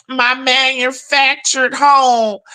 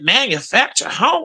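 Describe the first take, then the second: First: Slow, proud mock of "My manufactured home"; mocking the neighbor. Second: "Manufactured home?" with disbelief and a rising end; incredulous question. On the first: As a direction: drag out "home" like she's bragging. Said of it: "Baby, you know I waited around to see". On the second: Retold or imitated. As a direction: ask it like you can't believe what you heard. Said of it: "I said".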